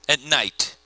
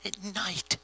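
First: Said in the usual way. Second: Very soft, spooky aside; hushed, as if out there in the dark; hushed repeat. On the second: Real, not acted. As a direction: drop almost to a whisper on the words.

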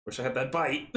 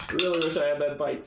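First: Said in the usual way. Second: Louder rueful. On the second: Real, not acted. Wistful repeat after a laugh.

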